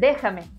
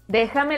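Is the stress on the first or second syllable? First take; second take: first; second. First: The stress is on the first syllable. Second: The stress is on the second syllable. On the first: The listener is addressed with tú. "para ustedes es esdrújula" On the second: The listener is addressed with vos. "para nosotros es grave"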